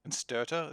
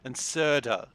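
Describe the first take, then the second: First: An extra t sound follows the s. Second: No extra t sound follows the s. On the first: The speaker calls it wrong. "Is that how I speak now?" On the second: The speaker calls it right. "That's the correct way to say it"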